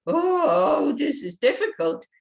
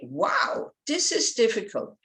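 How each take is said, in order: First: High, loud "Oh" dropping into "this is difficult"; dismayed whine. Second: Bright "Wow" then a lifted "this is difficult"; enthusiastic. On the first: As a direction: sound defeated and blocked. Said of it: "it kind of blocks you". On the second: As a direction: sound keen to take it on. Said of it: "gives you the enthusiasm". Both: Shown as a demonstration.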